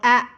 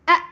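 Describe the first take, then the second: First: The sound is said plainly without pressure. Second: The sound is pressed with strong pressure. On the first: The speaker calls it wrong. "jangan kayak a atau a biasa" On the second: The speaker calls it right. "ini hamzah mati ditekan"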